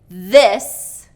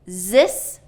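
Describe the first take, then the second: First: The word begins with a voiced th sound. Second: The word begins with a z sound. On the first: The speaker calls it right. "the voiced T H sound" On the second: The speaker calls it wrong. "substituting a Z"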